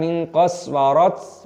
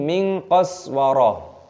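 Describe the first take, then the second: First: The last word ends with a t sound. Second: The last word ends with a soft h sound. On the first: The speaker calls it wrong. "Bukan min qaswarat" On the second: The speaker calls it right. "tapi min qaswara"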